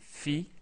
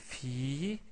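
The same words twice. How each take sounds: First: The vowel is held only briefly. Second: The vowel is drawn out long. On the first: "avec kasra on dit fi" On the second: "avec la voyelle longue ya on dit fi"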